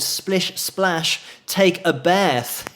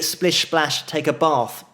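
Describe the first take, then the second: First: It is said in an American accent. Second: It is said in an English accent. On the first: "in an American accent. A bad one" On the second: "in an English accent"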